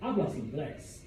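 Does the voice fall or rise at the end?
fall. The voice falls at the end. It states that he speaks English.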